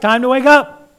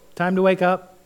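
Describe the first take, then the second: First: It is said louder and firmer. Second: It is said softly and gently.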